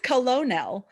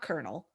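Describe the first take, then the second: First: It is said without an R sound, as spelled. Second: It is said with an R sound, like kernel. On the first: The speaker calls it right. "it's Colonel" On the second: The speaker calls it wrong. "It's not Colonel. There's no R"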